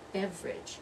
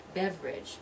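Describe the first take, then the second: First: The word is said with only two syllables. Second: The same.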